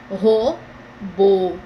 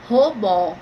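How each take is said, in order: First: The stress is on the last syllable. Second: The stress is on the first syllable. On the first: It is the word for a machine. "vai ficar robô, porque tem acento" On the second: It sounds like the word for a robbery. "Se não tivesse acento, ia ficar robô. Roubo"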